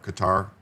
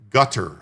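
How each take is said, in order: First: The name does not sound like gutter. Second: The name sounds like the word gutter. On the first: This is the current way of saying it. "Now it's Qatar" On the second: This is the older way of saying it. "I think they used to pronounce it gutter"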